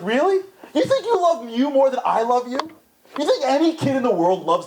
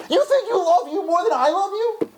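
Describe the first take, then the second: First: Higher, disbelieving question; a touch of gentle disbelief; lightly voiced God asking back; incredulous God. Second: Much higher and strained, pushing the disbelief; God pleading to be understood; overdone divine disbelief; exaggerated incredulous God. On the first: God answers, first take. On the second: God answers, stronger take.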